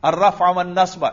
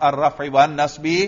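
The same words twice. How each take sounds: First: The first word ends in an a vowel. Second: The first word ends in an i vowel. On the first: The phrase is an object of an implied verb. "دوسرا نصب، کیوں؟ مفعول بھی ہونے کی وجہ سے" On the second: The phrase is a substitute for the earlier word. "اور تیسرا بدل بنا سکتے ہیں"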